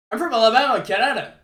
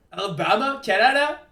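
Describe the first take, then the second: First: Said in the usual way. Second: "Alabama, Canada?" with CANADA rising high at the end; puzzled echo question. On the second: Real, not acted. Streamer queries a viewer's odd hometown, "Alabama, Canada?" rising in puzzlement. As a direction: repeat "Alabama, Canada?" as a query, lifting the last word.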